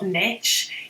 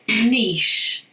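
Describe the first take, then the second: First: The word ends like kitsch, with a short vowel. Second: The word ends like quiche, with a long vowel. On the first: The speaker calls it wrong. "It's not niche" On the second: The speaker calls it right. "it's niche, okay? ... niche has the same phonic ending"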